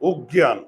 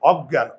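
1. প্রথম স্বরধ্বনিটি একটি বদ্ধ 'o' ধ্বনি। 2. প্রথম স্বরধ্বনিটি একটি বিবৃত 'a' ধ্বনি। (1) "যদি অজ্ঞান উচ্চারণ করতাম তাহলে মুখের চোয়াল দুটি বুঝে থাকতো" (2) "অ, চোয়াল খুলে যায়"

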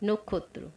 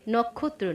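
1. প্রথম স্বরধ্বনিটি একটি বদ্ধ 'o' ধ্বনি। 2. প্রথম স্বরধ্বনিটি একটি খোলা 'aw' ধ্বনি। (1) "প্রথম অক্ষরের উচ্চারণ ওকার হয়" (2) "নয়"

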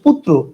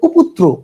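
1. r ধ্বনিটি p-এর পরে আসে। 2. r ধ্বনিটি p-এর আগে আসে। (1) "এটার উচ্চারণ হচ্ছে পুত্র।" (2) "আপনি যদি রস্যকারটা পয়ের আগে উচ্চারণ করেন তাহলে এটার উচ্চারণ হবে"

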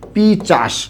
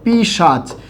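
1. ch ধ্বনিটি s ধ্বনির আগে আসে। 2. sh ধ্বনিটি ch ধ্বনির আগে আসে। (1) "এটাকে আমরা অনেকেই এই শব্দটাকে বলি কি? পিচাস" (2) "আমরা একটা শব্দ লিখলাম এরকম, পিশাচ"

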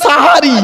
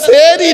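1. প্রথম স্বরধ্বনিটি 'a'-এর মতো শোনায়। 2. প্রথম স্বরধ্বনিটি 'e'-এর মতো শোনায়। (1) "দন্তেশ্বয় আকার।" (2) "দন্তেশ্বয় একার নয়"

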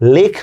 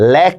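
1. স্বরটি সংবৃত এ-ধ্বনিতে উচ্চারিত হয়। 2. স্বরটি বিবৃত এ-ধ্বনিতে উচ্চারিত হয়। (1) "লেখ না বলে" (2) "লেখ বলতেছি। তো এগুলো হচ্ছে বিবৃত উচ্চারণ।"

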